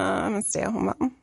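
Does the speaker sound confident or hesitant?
hesitant. It is mumbled quietly and hesitantly. The speaker feels embarrassed about the role. The speaker calls it wrong.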